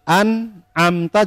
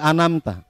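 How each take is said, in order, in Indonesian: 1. Bunyi tengahnya terpisah dengan jelas. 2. Bunyi tengahnya menyambung tanpa jeda. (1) "Jadi an amta" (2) "jadi anamta"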